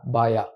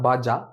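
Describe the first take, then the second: First: The middle consonant is a 'y' sound, as in yes. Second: The middle consonant is a 'j' sound, as in jam. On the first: The speaker calls it right. "pronounced as Baya" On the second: The speaker calls it wrong. "not Baja"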